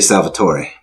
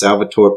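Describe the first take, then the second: First: The name is said with an Italian-style pronunciation. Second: The name is said in a plain English reading. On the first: "having a lot of Italianos in my family, I would say Salvatore" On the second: "if you're just reading it and pronouncing it regular"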